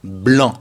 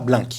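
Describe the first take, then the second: First: "blanc" ending on the nasal an, no k; silent final C. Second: "blanc" mispronounced like "blink", hard k ending; the mistaken "blank" version of blanc; wrongly sounded C. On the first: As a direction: say "blanc" correctly, open nasal vowel, c silent. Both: Shown as a demonstration. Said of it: "On ne prononce pas le C".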